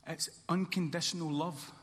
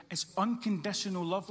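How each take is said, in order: First: Said in the usual way. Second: Unconditional punched harder; stress on unconditional. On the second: Shown as a demonstration. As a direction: hit the word unconditional. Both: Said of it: "Let me say that again".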